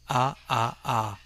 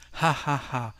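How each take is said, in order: First: Each syllable starts with no breathy h sound. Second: Each syllable starts with a breathy h sound. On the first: The speaker does not find it really funny. "if you want to laugh about something but in an ironic way" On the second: The speaker finds it truly funny. "in these expressions you can hear a little breath"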